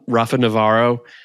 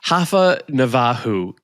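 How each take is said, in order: First: The name is said with an English pronunciation. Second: The name is said with a Brazilian Portuguese pronunciation. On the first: "I call him" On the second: "is the uh, Brazilian Portuguese way"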